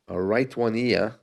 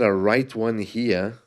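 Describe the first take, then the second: First: The h in "here" is dropped. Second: The h in "here" is pronounced.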